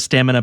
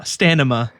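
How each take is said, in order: First: The m sound comes before the n sound. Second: The n sound comes before the m sound.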